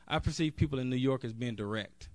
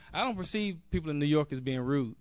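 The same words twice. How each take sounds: First: "I" and "direct" weighted, the contrast landing on "direct"; stress on direct. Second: "don't" leaned on, the phrase ending on "rude"; stress on DON'T. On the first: To the convention crowd, recasting New Yorkers as direct, "direct" stressed. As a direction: correct the word, landing on "direct". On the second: To the convention crowd, rejecting rude New Yorkers, "don't" stressed. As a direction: deny it firmly, hitting "don't". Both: Real, not acted.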